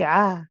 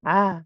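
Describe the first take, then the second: First: The ain sound is light and thin. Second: The same.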